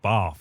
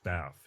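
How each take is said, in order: First: The vowel is a long British 'ah' sound. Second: The vowel is a short American 'a' sound. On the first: "I've always said bath" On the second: "instead of bath"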